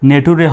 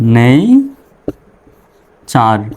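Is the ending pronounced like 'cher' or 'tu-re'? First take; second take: tu-re; cher. First: The ending is spoken as separate syllables tu-re. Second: The ending is spoken as a single cher sound. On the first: The speaker calls it wrong. "নেটুরে হবে না" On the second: The speaker calls it right. "হবে হলো নেইচার"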